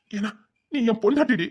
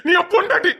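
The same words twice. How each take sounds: First: Softer, falling, heartbroken insistence; hurt plea. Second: Anguished cry. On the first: Husband quietly reminding his wife she is his, hurt. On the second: Husband crying out to his wife that she is his, anguished. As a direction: burst out with it, pleading. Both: Acted.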